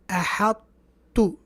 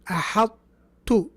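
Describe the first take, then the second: The two takes are said the same way.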